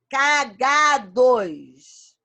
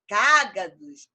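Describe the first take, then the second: First: The stress is on the second syllable. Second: The stress is on the first syllable. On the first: The speaker calls it wrong. "Se eu tirar o acento de cágados" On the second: The speaker calls it right. "Proparoxítona foi acentuada"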